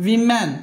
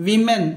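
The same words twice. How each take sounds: The two takes are said the same way.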